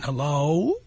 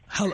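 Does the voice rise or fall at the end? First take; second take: rises; falls. First: The voice rises at the end, like a question. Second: The voice falls at the end, like a statement.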